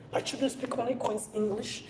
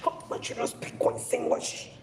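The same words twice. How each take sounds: First: Higher, sing-song bragging mother, rising on only; mock proud parent. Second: Airy, whispered imitation of a bragging mother; mock proud parent. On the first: Mocking a mother boasting her children's English, higher and rising. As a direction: ham up the boast with a lifted tune. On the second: Mocking parents who brag about English, whispered. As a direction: sneer at the boast in a hushed put-on voice.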